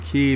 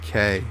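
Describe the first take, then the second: First: The vowel sounds like the one in 'see'. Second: The vowel sounds like the one in 'say'. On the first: This is how others online pronounce it. "I keep saying key because that's how everyone else on YouTube pronounces it" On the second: This is how the speaker would naturally pronounce it. "I want to say K. It sounds like K to me"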